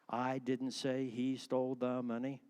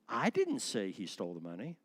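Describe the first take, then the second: First: No single word stands out with stress. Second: The word I carries strong stress.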